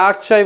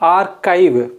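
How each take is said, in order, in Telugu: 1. మధ్య హల్లు 'ch' శబ్దం. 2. మధ్య హల్లు 'k' శబ్దం. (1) "ఇది ఆర్చైవ్ కాదు"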